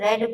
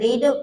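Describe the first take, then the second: First: The vowel is a short 'e', like 'red'. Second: The vowel is a long 'ee', like 'reed'. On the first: It is the past tense or past participle. "Past tense और past past participle है उसे हम रेड पढ़ेंगे" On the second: It is the present or base form. "रीड का main form होता है, उसे हम रीड पढ़ेंगे"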